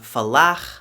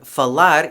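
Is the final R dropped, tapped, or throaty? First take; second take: throaty; tapped. First: The final R is made in the throat. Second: The final R is a light tap.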